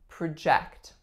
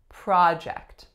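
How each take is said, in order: First: The stress is on the second syllable. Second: The stress is on the first syllable. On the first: It is used as a verb. "My second syllable here is the strongest" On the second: It is used as a noun. "strongest syllable, the first makes a sound ah"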